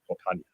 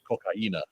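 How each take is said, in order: First: The word ends with an 'an-ya' sound. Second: The word ends with a stressed 'ee-na' sound. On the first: This is a joking Spanglish version. "I just like cocaña better" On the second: This is the actual Spanish word. "it's actually pronounced cocaína"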